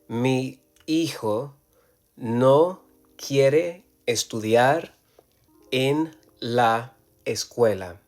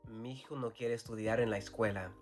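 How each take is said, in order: First: Each word is said separately, without linking. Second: Matching vowels between words are merged together. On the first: The speaker calls it wrong. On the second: The speaker calls it right. "we're going to merge the sound"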